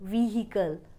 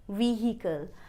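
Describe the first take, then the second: The two takes are said the same way.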